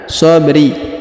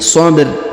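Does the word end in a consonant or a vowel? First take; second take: vowel; consonant. First: The word ends with a short i vowel. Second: The word ends on a stopped r consonant. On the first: The speaker calls it wrong. "bukan sabri" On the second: The speaker calls it right. "tapi sabr ya, kita sukunkan huruf ro yang di ujung"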